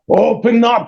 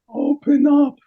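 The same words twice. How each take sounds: First: It is called out in a forceful, commanding voice. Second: It is said in a weak, faint, exhausted voice. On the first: An authority is demanding entry. The speaker calls it wrong. "It's not like from the Golden Crown. Open up in the name of the. Not like that" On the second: A worn-out man is begging to be let in. The speaker calls it right. "This was open up"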